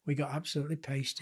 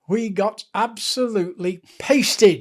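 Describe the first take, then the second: First: Softly repeated, falling away; subdued admission. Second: ABSOLUTELY PASTED drawn out loud and higher; emphatic punchline. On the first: Low-key repeat of the admission. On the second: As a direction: stretch "absolutely pasted" slowly, hitting it hard. Dramatic punchline of match story. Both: Real, not acted.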